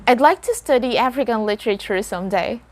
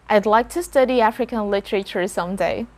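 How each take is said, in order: The two takes are said the same way.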